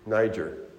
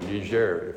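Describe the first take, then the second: First: The name is said with a non-French pronunciation. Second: The name is said with a French pronunciation.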